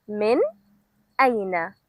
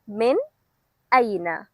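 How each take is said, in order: Both takes have the same delivery.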